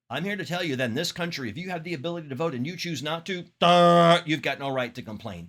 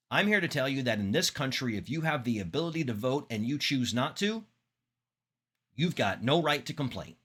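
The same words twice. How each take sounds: First: Rushed quote with a blurted duh where the pause should be; vocalized pause. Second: Long silent pause, then you've got no right to complain; pause before the punch line. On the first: Teacher demoing a filler ruining the pause. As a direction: fill the pause with a dumb duh instead of silence. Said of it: "That totally does not have the same effect". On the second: Teacher demoing a deliberate pause to students. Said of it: "That pause makes further emphasis". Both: Shown as a demonstration.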